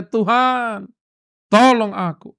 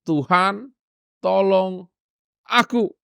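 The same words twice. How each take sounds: First: Urgent plea. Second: Said in the usual way. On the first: Shown as a demonstration. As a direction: plead "Tuhan, tolong aku" with urgency. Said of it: "yang dia bisa ucapkan hanya". ("Tuhan, tolong aku" diserukan mendesak, "tolong" ditekan) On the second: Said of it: "Hanya tiga kata".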